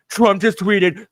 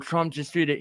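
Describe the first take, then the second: First: It is said in a gleeful, delighted tone. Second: It is said in a plain, neutral tone. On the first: The speaker is pleased by the news. The speaker calls it wrong. "he's saying it with like glee in his voice" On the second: The news is reported soberly. The speaker calls it right. "he doesn't say it like"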